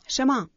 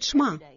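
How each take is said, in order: First: A vowel is heard between the sh and m. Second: The sh runs straight into the m. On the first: "Они называют это Шема" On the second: "Или иногда произносят Шма"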